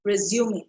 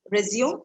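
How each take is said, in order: First: Resume as re-zyoo-may, three syllables; resume, the noun, with a 'may' ending; correct pronunciation. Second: Resume as re-ZYOOM, two syllables; resume with no final vowel; wrong pronunciation. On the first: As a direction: sound the final E of resume. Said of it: "this word is pronounced as". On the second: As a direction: say resume like the verb, rising in question. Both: Shown as a demonstration.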